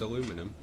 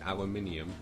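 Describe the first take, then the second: First: It is pronounced the American way. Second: It is pronounced the British way. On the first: The speaker calls it wrong. "What are you, American?" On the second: The speaker calls it right.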